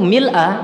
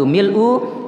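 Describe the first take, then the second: First: The word ends with an 'a' vowel. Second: The word ends with an 'u' vowel. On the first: The word describes the state of the praise. "kalau kita jadikan itu mil'a menjadi hal" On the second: The word describes the praise as an adjective. "kalau kita membaca yaitu mil'u, yaitu menjadi sifat"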